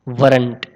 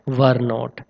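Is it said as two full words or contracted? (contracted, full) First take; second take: contracted; full. First: It is said as one short contracted word. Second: It is said as two separate full words.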